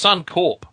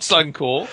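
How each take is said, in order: First: The final P sound is clearly pronounced. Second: The final P sound is left off. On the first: The speaker calls it right. "It's Suncorp" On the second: The speaker calls it wrong. "It's not Suncorp"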